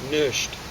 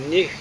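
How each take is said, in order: First: The word ends in a soft 'sh' sound. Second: The word ends in a harsh throaty 'ch' sound. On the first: This is the form used here. "It's nisht" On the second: This is not the form used here. "It's not nicht"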